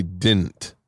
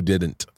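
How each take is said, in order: First: "didn't" said as "dint"; dropped D in didn't. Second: Both D sounds kept in "didn't"; full pronunciation of didn't. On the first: Retold or imitated. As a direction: leave out the middle D of "didn't". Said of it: "but they say". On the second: Shown as a demonstration. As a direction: say "didn't" as two syllables. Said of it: "They don't do".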